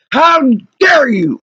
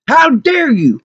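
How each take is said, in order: First: Slow, drawn-out indignant cry; outraged. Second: Higher, affronted reproach; indignant. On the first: Wronged customer repeating it to the garage workers, outraged. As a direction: stretch out the reproach in outrage. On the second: Wronged customer to the garage workers, indignant. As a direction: scold them in outrage. Outraged customer, first take. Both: Real, not acted.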